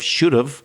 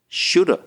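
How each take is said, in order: First: The v sound in have is clearly heard. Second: Have shrinks to a short uh sound. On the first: "Instead of should have" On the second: "you can't even hear the v sound... it's just an uh sound"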